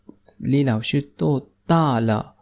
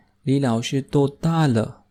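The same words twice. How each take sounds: First: "李老师多大了?" spoken slowly, syllable by syllable, for learners; slow, careful model reading. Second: Said in the usual way. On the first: Shown as a demonstration. Teacher models the question slowly for students, slow and clear. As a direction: lay out each word of "李老师多大了?" clearly. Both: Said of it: "teacher repeats the question slowly".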